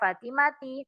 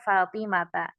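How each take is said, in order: First: The name ends with an 'i' vowel. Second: The name ends with an 'a' vowel. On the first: The speaker calls it wrong. "Bukan lagi dibaca Fatimati" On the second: The speaker calls it right. "tapi dibaca Fatimata"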